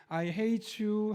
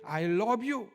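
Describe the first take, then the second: First: Slow, higher-pitched sweet coo; drawn-out, soothing imitation; gently. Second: Higher, stern mock rebuff; curt-hearted imitation that contradicts the words; coldly. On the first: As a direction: say it tenderly, as if petting a dog. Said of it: "이 말을 하면서 부드럽게". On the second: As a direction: say it harshly, as if scolding a dog. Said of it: "좀 매몰차게".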